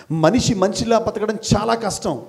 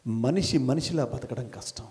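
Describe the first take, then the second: First: చాలా leaned on in a fuller voice; firm emphasis on చాలా at normal level; stress on చాలా. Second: Low and soft, almost to himself; hushed statement before the emphasis; quiet first take. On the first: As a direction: hit చాలా with weight, falling after. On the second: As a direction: say it softly, let it sink. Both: Shown as a demonstration.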